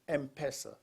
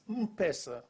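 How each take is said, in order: First: The M is said as the letter name 'em'. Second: The M is said as a plain m-sound. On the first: The speaker calls it wrong. "I would call it something else, M-Pesa, you know, the M" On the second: The speaker calls it right. "it's not M-Pesa, it's, a, it's M-Pesa"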